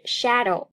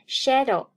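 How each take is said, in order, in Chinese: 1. 第一个元音发音时嘴巴张得很大。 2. 第一个元音发音时嘴巴开口较小。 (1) "事实上是shadow，发这个音的时候嘴巴张大一点" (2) "很多同学都容易读成shadow"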